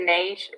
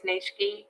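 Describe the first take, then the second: First: It is one syllable with no final vowel. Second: It is two syllables ending in an ee. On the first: The speaker calls it wrong. "I've always just said niche" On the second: The speaker calls it right. "Apparently it's niche-y"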